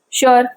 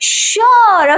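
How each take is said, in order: First: The word is said flatly, without enthusiasm. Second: The word is said with happy excitement. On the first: The agreement is unenthusiastic. The speaker calls it wrong. "Without punctuation" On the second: The speaker is glad to go out. The speaker calls it right. "with a punctuation"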